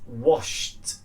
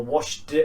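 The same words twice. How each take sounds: First: "washed" ending in a voiceless t. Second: "washed" with a voiced "duh" on the end; wrong D ending. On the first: Teacher giving the correct take, crisp T ending. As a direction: say "washed" as one syllable, "washt". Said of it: "it's washed with a t". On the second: Teacher showing what it's not, voiced D ending. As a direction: end "washed" on a heavy d, "wash-d". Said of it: "So it's not washed or washed". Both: Shown as a demonstration.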